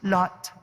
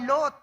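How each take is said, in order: First: The name is said with an English accent. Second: The name is said with a Filipino accent.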